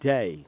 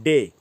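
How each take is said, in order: First: It is said with a British accent. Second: It is said with an Indian accent. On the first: The speaker calls it right. "लेकिन असल में होता है" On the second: The speaker calls it wrong. "दिन को हम लोग बोलते हैं डे"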